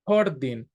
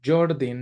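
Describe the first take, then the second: First: The name is said with a Spanish pronunciation. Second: The name is said with an English pronunciation. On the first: This is how the name would be said in Spanish. "it would be the correct pronunciation in Spanish" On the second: This is how the speaker always says the name. "the pronunciation in English"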